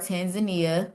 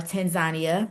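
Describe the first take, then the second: First: The name is said the usual English way. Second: The name is said the way locals say it.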